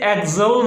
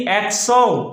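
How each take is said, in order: First: "Excel" as eg-ZUL, with a z; the faulty eg-ZOL for "Excel"; mispronunciation. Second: "Excel" slowly as ek-SO(L), with an s; correct pronunciation. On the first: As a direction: say "Excel" with z in place of the c. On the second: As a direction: say "Excel" drawn out, ek then sul. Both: Shown as a demonstration. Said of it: "इसे Excel नहीं पढ़ना".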